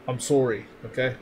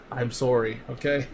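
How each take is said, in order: First: Rounded Canadian "sorry"; best Canadian accent, lightly done. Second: Said in the usual way. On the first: Shown as a demonstration. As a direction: apologize in a put-on Canadian accent. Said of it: "in my best Canadian accent". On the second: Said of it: "my best Canadian accent".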